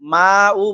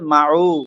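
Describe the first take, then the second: First: The 'ma' vowel is stretched out long. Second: The 'ma' vowel is short and joined. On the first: The speaker calls it wrong. "মা উ বলা যাবে না" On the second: The speaker calls it right. "বলতে হবে মাউ"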